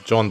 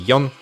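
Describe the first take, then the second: First: The name is said the American way. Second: The name is said the Swedish way. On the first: The speaker calls it wrong. "The Americans uh, and some Europeans even call him John" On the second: The speaker calls it right. "I think that's the correct pronunciation"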